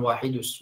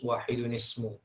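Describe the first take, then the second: First: The n sound after wahid is dropped. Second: An n sound links wahid to ismu. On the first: The speaker calls it wrong. "Jadi bukan wahidus" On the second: The speaker calls it right. "Ada nunnya sebelum wahidus"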